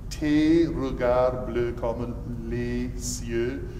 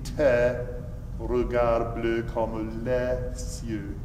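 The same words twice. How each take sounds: First: The vowels in tes and les are closed. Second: The vowels in tes and les are open. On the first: The speaker calls it wrong. "you're saying" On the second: The speaker calls it right. "It really should be"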